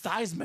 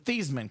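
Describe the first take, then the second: First: The first syllable rhymes with Heisman. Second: The first syllable does not rhyme with Heisman. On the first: This is the new name chosen to rhyme with the trophy. "He was Theismann now" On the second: This is the family's original name. "the Thiesman clan"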